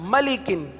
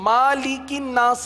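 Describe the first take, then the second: First: The first vowel is short. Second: The first vowel is drawn out long. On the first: The speaker calls it right. "सही है, मीम पर जबर है" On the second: The speaker calls it wrong. "अब ये मालिकिन नास नहीं है"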